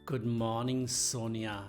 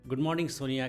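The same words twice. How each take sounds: First: It is said with a changed, softer, affectionate pitch. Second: It is said in an ordinary, neutral pitch. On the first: The speaker is romantically interested in the listener. "आप ऐसा बोल सकते हैं" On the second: It is just an ordinary greeting. "बजाय कि ऐसा बोलने के"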